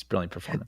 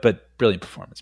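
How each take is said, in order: First: Much softer muttered repeat of "brilliant performance"; quiet. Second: Said in the usual way. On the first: Shown as a demonstration. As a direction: drop the voice for the second "brilliant performance". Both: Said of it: "is almost like a joke".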